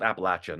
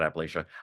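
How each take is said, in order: First: The third syllable sounds like 'latch'. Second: The third syllable sounds like 'lay'. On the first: The speaker calls it right. "It's called" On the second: The speaker calls it wrong.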